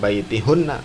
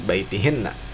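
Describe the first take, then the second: First: The vowel after the h is 'u'. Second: The vowel after the h is 'i'. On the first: The speaker calls it wrong. "Bukan baitihunna" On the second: The speaker calls it right. "tapi baitihinna karena ada ila"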